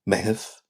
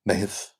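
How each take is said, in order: No difference in how they are said.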